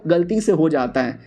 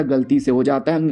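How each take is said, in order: First: Said in the usual way. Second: Lower, disbelieving echo rising at है; mock disbelief rising on है; incredulous. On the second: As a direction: throw the excuse back in disbelief. Son repeats in disbelief.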